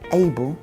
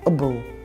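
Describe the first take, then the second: First: The first vowel is a full, strong sound. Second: The first vowel is a weak schwa sound. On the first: The speaker calls it wrong. "we don't say able" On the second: The speaker calls it right. "The schwa in able is a weak sound, ... we say able"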